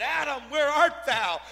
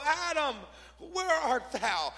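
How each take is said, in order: First: Loud, high, commanding summons; God in judgment. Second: High, slowing, grieving call; God in sorrow. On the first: Preacher as God calling Adam to account, stern judgment. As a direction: call the sinner out forcefully. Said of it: "the divine call of judgment". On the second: Preacher as God calling for lost Adam, sorrowful. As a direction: draw the question out with sorrow. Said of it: "the divine call of sorrow". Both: Acted.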